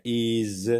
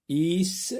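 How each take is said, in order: First: Is drawn out, ending in a buzzed z; Z sound ending. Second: Is drawn out, ending in a hissed s; S sound ending. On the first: Teacher offering pupils the other reading, is with a Z. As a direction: stretch is into a voiced zzz. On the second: Teacher offering pupils the first reading, Is with an S. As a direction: stretch Is into a sharp sss. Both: Shown as a demonstration. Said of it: "S se prononce Z".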